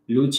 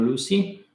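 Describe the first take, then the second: First: The name is said in its intended form. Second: The name is said like the English 'Lucy'. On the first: "it's supposed to be Luce" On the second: "or Lucy, whatever it is your pronunciation"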